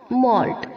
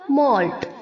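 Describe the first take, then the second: First: The vowel is a rounded 'aw' sound. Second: The same.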